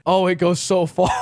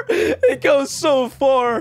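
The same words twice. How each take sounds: First: Said in the usual way. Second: Slow, laughed through the words; laughing. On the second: Real, not acted. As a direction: say it while cracking up. Laughing at deep hole.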